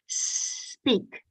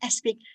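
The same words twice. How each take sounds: First: The word starts directly with the s. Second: An extra vowel is added before the s. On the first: The speaker calls it right. "no, not speak, speak" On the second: The speaker calls it wrong. "the Iranians always put a vowel in front of a word"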